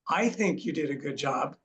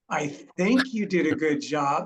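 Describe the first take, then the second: First: The word 'you' carries the main stress. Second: The word 'think' carries the main stress. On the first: Nobody else did a good job. "meaning nobody else did" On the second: The speaker is not really sure. "I'm not really sure"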